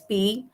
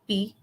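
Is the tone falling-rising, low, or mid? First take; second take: falling-rising; low. First: The pitch falls and then rises. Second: The pitch stays low. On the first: It means again. "falling rising" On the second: It means drink. "low tone"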